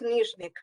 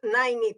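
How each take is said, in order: First: The name starts with a 'neezh' sound. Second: The name starts with a 'nai' sound. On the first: This is the original pronunciation. "originally, it's Nizhnik" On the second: This is how people in the Netherlands say it. "they always say Nainik, and it's also fine"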